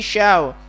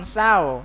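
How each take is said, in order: First: The syllable starts with an sh sound. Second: The syllable starts with a plain s sound. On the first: The speaker calls it right. "tapi syaw" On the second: The speaker calls it wrong. "jangan saw"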